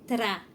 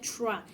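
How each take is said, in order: First: The r is said with a quick tongue tap. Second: The r is said without a quick tongue tap. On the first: The speaker calls it right. "é tra ... A nossa língua ela faz uma vibração rápida" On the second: The speaker calls it wrong. "mas não é tra"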